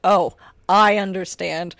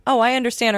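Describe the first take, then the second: First: Slow, drawn-out "Oh, I understand" with stress on "I"; slow ironic reading. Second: "Oh, I understand" said plainly with a falling tune; flat reading. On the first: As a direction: stretch "Oh, I understand" sarcastically, leaning on "I". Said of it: "put the inflection and emphasis on anything". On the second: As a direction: read "Oh, I understand" neutrally, falling at the end. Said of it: "difficult to read the inflection". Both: Shown as a demonstration.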